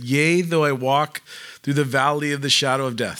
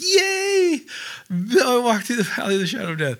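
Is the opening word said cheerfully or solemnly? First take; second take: solemnly; cheerfully. First: It is said in a solemn, serious tone. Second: It opens with a cheerful, excited cheer.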